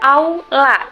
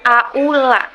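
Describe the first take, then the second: First: The first vowels glide together without a break. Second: The first vowels are said as separate sounds. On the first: The speaker calls it right. "pembacaannya seolah memakai huruf W" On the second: The speaker calls it wrong.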